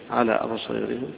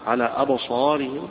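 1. الألف الطويلة مُمالة بشدة نحو الكسرة. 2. الألف الطويلة مفتوحة وغير مُمالة. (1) "هيقرأها بالإمالة أبو عمرو" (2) "الجمهور على الفتح"

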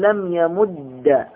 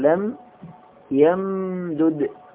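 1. ينتهي الدال المدغم بحركة a. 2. ينتهي الفعل بلا حركة، والدالان منفصلان.

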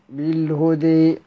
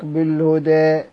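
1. الحركة الأخيرة تميل تمامًا نحو صوت 'ee'. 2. الحركة الأخيرة تميل قليلًا نحو 'ee' فقط. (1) "يقرؤون بالإمالة المحضة" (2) "أما تقليل"

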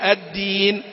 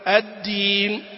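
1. صوت النون واضح وجلي. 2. صوت النون ممضوغ ومكتوم. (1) "المفروض" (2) "بعضهم يقرأ النون كأنه يمضغها"

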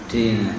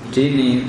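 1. Kata ini diakhiri vokal a. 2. Kata ini diakhiri vokal i. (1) "tapi apa? Dina" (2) "bukan dini"

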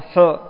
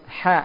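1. Bunyi ha tebal, dengan bunyi yang berat dan membulat. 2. Bunyi ha tipis, dengan mulut terbuka. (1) "bukan hu" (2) "suara menjadi apa tipis"

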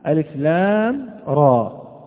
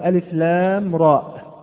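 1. ينتهي Raa على حرف المد الطويل دون وقف. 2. ينتهي Raa بهمزة وقف بعد حرف المد الطويل. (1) "حرف الراء وألف فقط، ليس راء ألف همزة" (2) "يقول ألف لام راء بالهمزة، وهذا خطأ"

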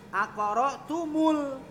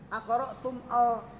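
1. Vokal u menghubungkan tum ke suku kata berikutnya. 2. Tum dan al diucapkan terpisah, tanpa tambahan vokal. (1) "mimnya dikasih dhammah. Maka menjadi aqra'tumul" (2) "enggak ada tum al"

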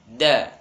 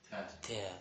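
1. Suku katanya diucapkan kuat, dengan tekanan. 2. Suku katanya diucapkan lemah, tanpa tekanan. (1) "Tapi harus dengan tenaga" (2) "Ini kurang kuat"

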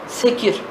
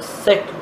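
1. k ile r arasında bir i ünlüsü var. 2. k ile r arasında ünlü yok. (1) "Okurken öyle bir esre varmış gibi okunur" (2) "Es-sekru'dur o"

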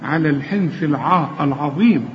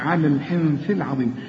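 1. صوت ع ثقيل وممدود. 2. صوت ع خفيف ورفيع. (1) "اوعى تقول لي على الحنث العاء العظيم، اقول لك خطا" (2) "لازم اغنها على الحنث العظيم"

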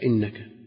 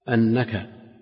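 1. تبدأ الكلمة بحركة 'i'. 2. تبدأ الكلمة بحركة 'a'. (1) "وجاء بكسرها" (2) "مضبوطا بالهمزة المفتوحة"

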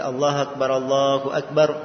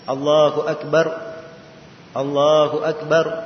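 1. Kedua frasa itu disambung tanpa jeda. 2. Kedua frasa itu dipisahkan dengan jeda. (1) "cara membaca takbirnya itu digabung dua-dua" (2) "kalau dipisah empat, cara membacanya"

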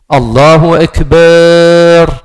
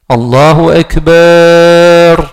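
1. La voyelle après le b se prolonge, elle est longue. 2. La voyelle après le b se prolonge, elle est longue.

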